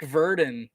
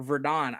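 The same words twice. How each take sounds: First: "Verdon" as VUR-din; "Verdon" ending in a weak -dən; unsure pronunciation. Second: "Verdon" as ver-DAWN; "Verdon" ending like the name Don; alternative pronunciation. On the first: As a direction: say "Verdon" with a reduced second syllable, VUR-dun. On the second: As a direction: say "Verdon" with a full second syllable, ver-DAHN. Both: Real, not acted. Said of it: "I don't actually know how it's pronounced".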